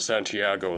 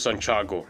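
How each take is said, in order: First: The name is said the Western way. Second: The name is said the Filipino way. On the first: "people in the West, they pronounce it as uh, Santiago" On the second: "here in the Philippines, we, we pronounce it Santiago"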